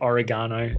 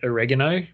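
First: It is said with an Australian pronunciation. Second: It is said with an American pronunciation. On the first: "when most Australians call it oregano" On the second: "I've kind of fallen on calling it oregano ... I watch too much American TV"

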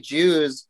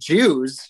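First: It is said in a plain, normal voice. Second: It is said in a weird, put-on voice.

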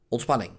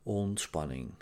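First: The word is said in a tense, hurried tone. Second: The word is said in a calm, relaxed tone. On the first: The speaker is not in a relaxed state. The speaker calls it wrong. "niet ontspanning. En dat klinkt anders" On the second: The speaker is in a relaxed state. The speaker calls it right. "En je laat het dat ook zo klinken"

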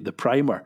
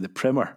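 First: The word is said with a British pronunciation. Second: The word is said with an American pronunciation. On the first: The speaker calls it right. "But we say properly" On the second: The speaker calls it wrong. "as Americans say"

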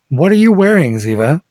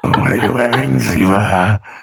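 First: It is said in the speaker's normal voice. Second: It is said in a put-on archivist voice.

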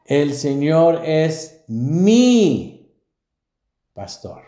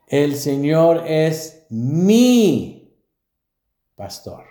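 First: The word mi gets strong emphasis. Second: The same.

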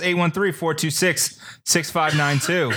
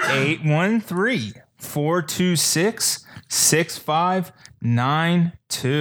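First: The number is read at normal speed. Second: The number is read more slowly.

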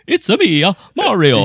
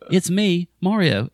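First: It is said in a put-on Italian accent. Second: It is said in a plain, normal voice. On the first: The speaker calls it wrong. "not trying to go" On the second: The speaker calls it right. "in your normal voice"

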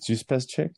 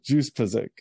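First: The last part begins with a ch sound. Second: The last part begins with a vowel sound. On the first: The speaker calls it wrong. "Did I say that right?" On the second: The speaker calls it right. "Ick as in what little girls say"

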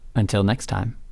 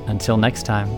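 First: The phrase trails off without a settled close. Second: The phrase ends with a complete, settled close.

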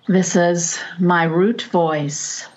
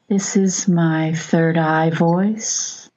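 First: The voice sounds firm and grounded. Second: The voice sounds soft and dreamy.

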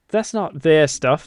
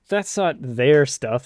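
First: It is said in a put-on British accent. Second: It is said in the speaker's ordinary accent. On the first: "That sounds like an awful lovely British boy" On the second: "I should have said that in an accent"

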